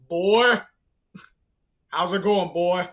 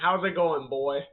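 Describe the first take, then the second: First: It is said in a Kratos impression voice. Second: It is said in his normal voice.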